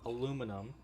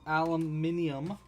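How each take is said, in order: First: It is said the American way, four syllables. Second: It is said the British way, five syllables.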